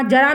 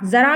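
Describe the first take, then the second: First: जरा with a plain j as in jar; जरा बिना नुक्ता, ज की आवाज़; plain ja sound. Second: जरा with a buzzing z as in zebra; ज़रा, नुक्ते वाली ज़ की आवाज़; nukta z sound. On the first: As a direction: say जरा with an ordinary j. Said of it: "जरा मीन्स क्या हो जाएगा". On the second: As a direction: say जरा as zara with a z. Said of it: "इसके नीचे बिंदी लग गई, नुक्ता लग गया". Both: Shown as a demonstration.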